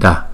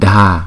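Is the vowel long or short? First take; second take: short; long. First: The vowel is kept short. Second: The vowel is drawn out long. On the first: The speaker calls it right. "mà là Da" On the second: The speaker calls it wrong. "không có phải kéo dài là Da"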